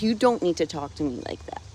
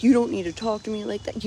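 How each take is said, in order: First: Same rebuke, pitched down and steadier; retold firm rebuke. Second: Retold going off. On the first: Answering the stepdad's snapping, firm retold rebuke. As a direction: lay it down firmly, less heated. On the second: Stepdad rebuking snappy comments, mock indignant scolding. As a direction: scold as the stepdad, mildly heated. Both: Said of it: "he went off on me and he's like".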